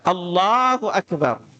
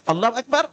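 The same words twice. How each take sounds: First: It is said at a steady, moderate pace. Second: It is said quickly, rushing the syllables. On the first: The speaker calls it right. "Ingat bacanya cuma dua harokat" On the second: The speaker calls it wrong. "jangan terlalu cepat. ... Ini juga kurang tepat nih"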